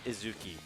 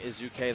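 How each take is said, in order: First: The name ends with an "ee" sound. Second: The name ends with an "ay" sound. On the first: The speaker calls it right. "It is Izuki" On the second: The speaker calls it wrong. "I have been saying Izuke this whole time"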